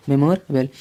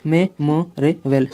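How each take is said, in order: First: Said in the usual way. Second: "मेमोरेबल" slowly broken into separate syllables; slow teaching split of "मेमोरेबल". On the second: Shown as a demonstration. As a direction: sound out "मेमोरेबल" with a gap after each syllable. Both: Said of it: "इससे हम क्या पढ़ेंगे".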